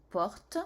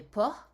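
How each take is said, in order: First: Porte said with a clear final t after the r; porte, final t sounded. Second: Port said without a final t, ending on the r. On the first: La maîtresse oppose port et porte: porte, t bien prononcé. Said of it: "alors que là c'est porte". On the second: La maîtresse explique le E muet: port, sans t final. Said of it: "Il fallait bien mettre le E, sinon ça fait port". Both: Shown as a demonstration.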